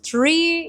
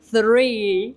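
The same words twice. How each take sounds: First: The word begins with a plain t sound. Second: The word begins with a th sound. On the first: The speaker calls it wrong. "I know you've pronounced three instead of" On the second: The speaker calls it right. "instead of three"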